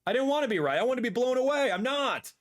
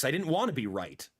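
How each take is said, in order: First: Higher, louder exasperated cry; frustrated outburst. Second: Said in the usual way. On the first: Real, not acted. Streamer to viewers about the Switch two prices, exasperated louder outburst. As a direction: let the disappointment burst out. Repeats the line, second louder.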